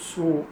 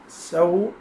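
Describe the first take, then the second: First: The vowel after the s is not a. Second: The vowel after the s is an open a.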